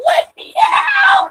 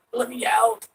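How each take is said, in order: First: Very high, drawn-out scream; screamed plea. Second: Higher-pitched plea to be freed; acted plea. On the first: Acted. Voicing the trapped cat demanding out, long high scream. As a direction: scream it long and shrieking to be freed. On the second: Voicing the trapped cat asking out, high contained plea. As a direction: plead to get out, raised pitch, not yet shouting.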